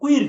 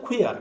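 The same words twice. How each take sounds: First: কুইর said "kwir", with no "a" before the R; higher-pitched কুইর, closed "ir" ending; wrong pronunciation. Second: কুয়ার said "kwi-ar", with an open "ar" ending; correct pronunciation. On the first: Teacher warning how not to say it, কুইর as "kwir". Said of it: "কুইর না". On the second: Teacher giving the right form after the wrong, কুয়ার as "kwi-ar". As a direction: say কুয়ার with the "a" sounded before R. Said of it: "এটা হচ্ছে কুয়ার". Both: Shown as a demonstration.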